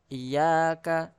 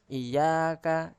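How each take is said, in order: No difference in how they are said.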